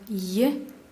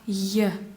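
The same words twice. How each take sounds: First: The letter is read with a soft sound. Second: The letter is read with a hard sound. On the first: "в мягких словах" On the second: "в твердых словах"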